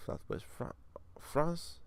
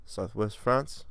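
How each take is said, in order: First: Put-on slow, slipping French accent; half-hearted French accent; attempted French accent. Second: Said in the usual way. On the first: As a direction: read it slowly with faked French. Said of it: "I just lost my accents completely". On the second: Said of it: "I just lost my accents".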